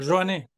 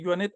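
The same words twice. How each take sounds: First: The first sound is a stronger, R-like sound. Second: The first sound is a plain Spanish J. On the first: The speaker calls it right. "La J hay que pronunciarlo un poquito más fuerte" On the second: The speaker calls it wrong. "yo también lo pronunciaba así"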